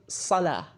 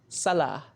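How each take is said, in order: No difference in how they are said.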